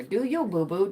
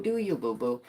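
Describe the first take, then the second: First: Said in the usual way. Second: Low sassy. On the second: Shown as a demonstration. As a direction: Do you, boo-boo. dropped low and soft.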